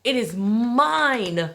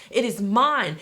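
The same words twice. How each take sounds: First: It is mine drawn out slowly, each word weighted; very slow emphatic. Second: Said in the usual way. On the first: Shown as a demonstration. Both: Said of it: "repeated affirmation".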